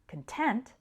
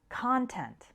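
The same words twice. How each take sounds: First: The stress is on the second syllable. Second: The stress is on the first syllable. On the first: "the stress on the second syllable" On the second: "the stress on the first syllable"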